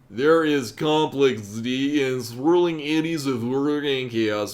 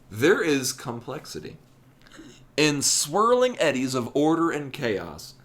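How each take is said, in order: First: It is said in a strange alien voice. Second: It is said slowly in a normal voice.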